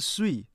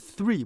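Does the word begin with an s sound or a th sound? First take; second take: s; th. First: The word begins with an s sound. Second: The word begins with a th sound. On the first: The speaker calls it wrong. "不是碎" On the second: The speaker calls it right. "是three"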